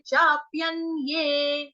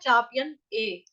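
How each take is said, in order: First: The last syllable begins with a 'y' sound. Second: The last syllable begins with a bare vowel. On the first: The speaker calls it right. "य ए ये, इसका उच्चारण स्पष्ट रूप से करेंगे" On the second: The speaker calls it wrong. "गलती से यहां पर बोला जाता है चाप्यन ए"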